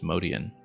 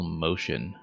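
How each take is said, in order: First: The name does not sound like 'motion'. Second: The name sounds like the word 'motion'. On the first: This is the name's original pronunciation. "his name was originally pronounced Modian" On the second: This is the later, widely used pronunciation. "so many people pronounced it uh, Paul Motion"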